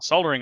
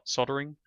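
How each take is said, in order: First: The L sound is clearly pronounced. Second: The L sound is left out. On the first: "Australians do say solder. We, we pronounce the L in the word" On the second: "I think in America it's pronounced soldering"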